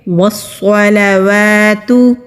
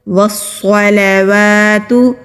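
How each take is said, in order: Both takes have the same delivery.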